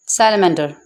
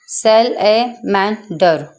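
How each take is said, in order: First: Said in the usual way. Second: सैलेमेंडर in four separate beats, "sal", "a", "man", "der"; split into syllables. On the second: Shown as a demonstration. (सैलेमेंडर को चार हिस्सों में तोड़कर, धीरे-धीरे) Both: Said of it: "four part में divide करके पढ़ा जाएगा".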